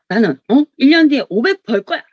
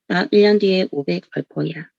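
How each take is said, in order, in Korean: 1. 목소리가 자신 있고 힘이 있어요. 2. 목소리가 약하고 설득력이 없어요. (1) "자신감을 보여주는 거야" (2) "막 이러면 '야 진짜 저 사람 벌겠다.' 이런 생각 드세요? 아니죠?"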